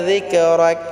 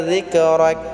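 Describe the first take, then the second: No difference in how they are said.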